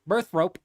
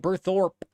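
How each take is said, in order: First: The name ends with the sound 'rope'. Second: The name ends with the sound 'thorpe'. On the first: The speaker calls it wrong. "I've been calling it Birthrope. It birthed the rope" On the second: The speaker calls it right. "I'm just now seeing that that's Birthorpe"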